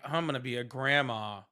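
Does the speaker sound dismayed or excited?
dismayed. The voice sounds dismayed and unhappy. The news is unwelcome. "That could be rough"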